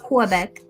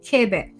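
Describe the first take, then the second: First: The word begins with a kw sound. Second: The word begins with a plain k sound. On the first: The speaker calls it wrong. "It's not Quebec" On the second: The speaker calls it right. "make the sound of a k sound in French"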